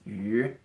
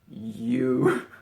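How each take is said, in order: First: The vowel is a rounded front ü sound. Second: The vowel sounds like English 'you'. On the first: The speaker calls it right. "It's yu" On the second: The speaker calls it wrong. "not you"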